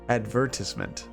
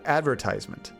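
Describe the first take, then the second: First: It is said with a British accent. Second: It is said with an American accent.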